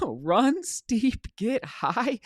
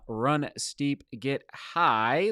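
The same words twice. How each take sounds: First: Excited motto. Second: Slow motto. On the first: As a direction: Run steep, get high said much higher with a laugh. Quoting viewer's motto, excited. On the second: Repeating motto slowly. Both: Real, not acted.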